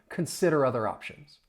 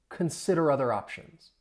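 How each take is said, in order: No difference in how they are said.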